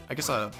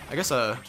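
Both takes have the same delivery.

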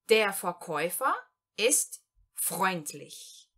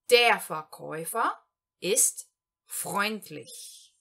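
First: Der Verkäufer ist freundlich, very slowly with pauses; slow German example. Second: Der Verkäufer ist freundlich in one slow flowing line; slow German sentence. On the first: Teacher reads the example sentence to learners, very slowly. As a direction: dictate the sentence slowly in two parts. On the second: Teacher reads the whole example sentence in one go, slowly. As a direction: read it whole, slowly and clearly. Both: Shown as a demonstration. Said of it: "Primeiro exemplo".

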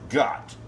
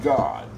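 First: "got" with a hard final t, not God; clear got. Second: "God" with a voiced final d, set against got. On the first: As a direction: say "got" crisply with a short o and a clipped t. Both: Shown as a demonstration. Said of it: "I said got. Not God".

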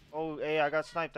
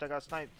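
First: Sudden loud startled call; surprised outburst. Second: Said in the usual way. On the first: Real, not acted. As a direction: blurt it out, caught off guard. Player just got sniped mid-match.

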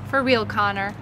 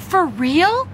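First: Lower, assured answer, falling; calm confirmation. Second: Higher, disbelieving question, rising sharply; astonished, pitch swooping up; amazed. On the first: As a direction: confirm it calmly to an amazed boy. Mom confirms calmly in answer. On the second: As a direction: ask it in happy disbelief. Boy amazed at the surprise. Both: Acted.

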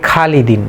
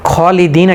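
First: "খালিদিন" with a thin, open "khaa"; common mispronunciation. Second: "খলিদিন" opened with a full, rounded "kho"; correct heavy KH. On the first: Teacher showing what people say here, mispronounced light khaa in "খালিদিন". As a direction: start "খালিদিন" on a light khaa, not rounded kho. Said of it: "এখানে বলে থাকে". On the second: Teacher introducing the word, heavy rounded kho in "খলিদিন". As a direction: make the first syllable of "খলিদিন" heavy, kho rather than khaa. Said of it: "খ জবর খ পড়তে হবে". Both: Shown as a demonstration.

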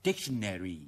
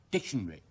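First: Dictionary as DIC-shn-air-ee; American pronunciation. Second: Dictionary as short DIC-shn-ree; British pronunciation. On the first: Teacher contrasting with British form, American pronunciation. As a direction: give dictionary a full AIR and long EE. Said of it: "美語呢". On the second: Teacher asking learners to listen, British pronunciation. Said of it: "英語係". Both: Shown as a demonstration.

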